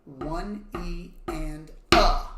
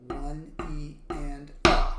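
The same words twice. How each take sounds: First: Slow count ending on a stressed uh; accent on uh. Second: Slow count with uh stressed; accent on uh. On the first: Teacher counting the D pattern with uh accented. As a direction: stretch the count, punch the uh. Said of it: "so that will look like this". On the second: Teacher repeating the D pattern count. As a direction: drag it, land hard on uh. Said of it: "which is the uh". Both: Shown as a demonstration.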